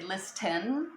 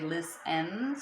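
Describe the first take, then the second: First: The T sound is pronounced in the middle. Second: The T sound is dropped from the middle. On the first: The speaker calls it wrong. "We don't say listen" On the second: The speaker calls it right. "we just say listen, so the T is dropped"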